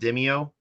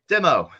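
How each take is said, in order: First: The word is said with three syllables. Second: The word is said with two syllables. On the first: The speaker calls it wrong. "I've been pronouncing it Demio forever" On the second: The speaker calls it right. "oh, demo. I can say it now"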